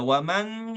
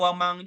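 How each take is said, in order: First: The final n is pronounced fully and clearly. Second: The final n becomes a velar ng sound. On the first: "Tidak waman gitu" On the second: "Tidak wamang juga"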